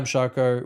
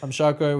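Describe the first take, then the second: First: It is said with low, flat energy. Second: It is said with moderate, livelier energy. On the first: "He goes, more" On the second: "He goes, more"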